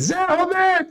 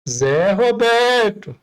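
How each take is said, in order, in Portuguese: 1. O nome é chamado em tom ríspido. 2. O nome é chamado em tom mais firme. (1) "tem que correr" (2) "opa, tá estreitando"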